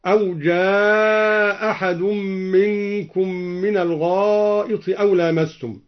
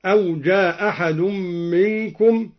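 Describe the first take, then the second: First: جاء with its long vowel stretched out, slowly; مد طويل في جاء. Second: جاء said with a short, quick vowel and no stretch; قصر المد في جاء. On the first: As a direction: draw out the madd on جاء. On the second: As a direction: keep the long vowel in جاء clipped to qasr length. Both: Shown as a demonstration. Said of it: "وعليه قصر ومد".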